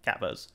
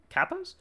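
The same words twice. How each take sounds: First: "Capos" lower, as a falling statement; settled CAPOS. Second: "capos?" lifted high at the end, unsure; questioning CAPOS. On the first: Reader settling on a pronunciation, falling and sure. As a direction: land "Capos" quietly as decided. Settles the word just questioned. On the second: Reader stumbling on an unfamiliar word, questioning. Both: Real, not acted.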